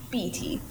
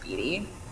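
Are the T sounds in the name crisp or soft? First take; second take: crisp; soft. First: The T sounds are crisp and emphasized. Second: The T sounds are soft and unemphasized. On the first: The speaker calls it wrong. "Maybe emphasize T's" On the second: The speaker calls it right. "I think it's just Beattie"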